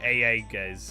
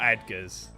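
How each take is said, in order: First: The name begins with a long 'ay' sound. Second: The name begins with a short 'eh' sound. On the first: The speaker calls it right. "It's like A Edgar's or something" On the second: The speaker calls it wrong. "It's definitely not Edgar's"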